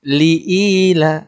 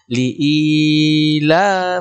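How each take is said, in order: First: The long vowel is held for two beats. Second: The long vowel is stretched far too long. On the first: The speaker calls it right. "Jadi dua ketukan" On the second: The speaker calls it wrong. "ini terlalu panjang"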